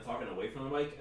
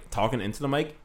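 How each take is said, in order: First: Slightly off-mic delivery; away from the mic. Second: Close, direct delivery on the microphone; into the mic. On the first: Podcaster showing a mic mistake, talking away from the mic. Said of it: "then talking away from the mic". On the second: Podcaster showing a mic mistake, talking into the mic. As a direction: speak straight into the mic. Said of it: "fucking up by talking into the mic". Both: Shown as a demonstration.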